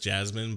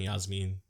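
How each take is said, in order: First: The name begins with an English J sound. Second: The name begins with a Y sound. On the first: "her name is just Jasmine" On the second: "I like saying Yasmin. That's just better. Spanish pronunciations"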